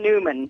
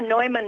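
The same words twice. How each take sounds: First: The name is said with English pronunciation. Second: The name is said with German pronunciation. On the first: "the anglicized version, I think we can go with that probably" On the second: "Neumann is the proper German pronunciation"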